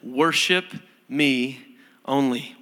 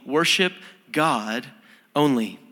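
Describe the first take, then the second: First: Said in the usual way. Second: "Worship God only" slowed, with weight on "Worship"; slow stress. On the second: Shown as a demonstration. Pastor drives home the commandment with slow stress. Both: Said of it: "which is this".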